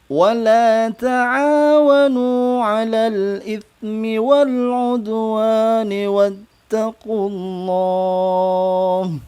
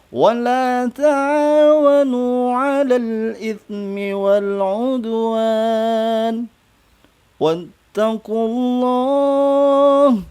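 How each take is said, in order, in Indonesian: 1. Dibaca langsung tanpa berhenti. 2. Dibaca dengan berhenti di tengah. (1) "Itu kalau kita baca sekali ya, langsung ya" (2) "Kalau mau wakaf boleh wakaf di sini dulu"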